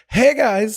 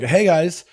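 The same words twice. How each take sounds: First: It is said at a high, weak pitch. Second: It is said at a normal speaking pitch.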